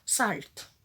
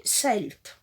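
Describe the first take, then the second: First: "Salt." said the French way, open a as in salle; "Salt." in plain French sounds, salt; French reading of a word. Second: "Salt." said with an English vowel, like "selt"; "Salt." half-English, sɛlt, a bit unsure; English try at a word. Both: Real, not acted. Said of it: "Excusez-moi pour mon anglais".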